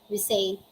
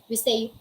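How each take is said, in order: No difference in how they are said.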